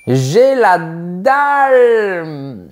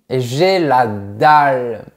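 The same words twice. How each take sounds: First: Slow, louder, drawn-out hungry moan; starving. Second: Said in the usual way. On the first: Shown as a demonstration. Teacher acting out being hungry, starving moan. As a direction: groan it like your stomach is empty. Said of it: "Voilà une locution que j'utilise". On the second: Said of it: "pour dire que j'ai faim".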